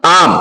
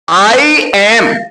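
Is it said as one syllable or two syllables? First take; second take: one syllable; two syllables. First: It is said as one short syllable. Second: It is said as two separate syllables. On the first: "spoken में बोला जाता है तो आम" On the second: "आई एम जब आप बोलेंगे"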